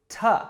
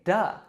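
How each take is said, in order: First: The word is reduced to a t sound. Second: The word is reduced to a d sound. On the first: "we will reduce it to t" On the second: "if it comes after a word ending in a vowel or a d, we'll say duh"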